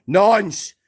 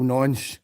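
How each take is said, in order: First: The same insult shouted high and loud; loud, jeering shout; yelled insult. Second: Said in the usual way. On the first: Real, not acted. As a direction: fling it out as an angry shout. Insult yelled after plain take.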